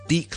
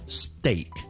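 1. 这个元音跟stay里的元音不一样。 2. 这个元音听起来跟stay里的元音一样。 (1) "第一件事唔系steak 啦。" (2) "it's steak"

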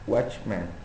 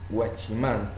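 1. Se pronuncia con sonidos al estilo inglés. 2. Se pronuncia con sonidos al estilo español. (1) "en realidad debería decirse watchman" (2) "la gente dice watchman"

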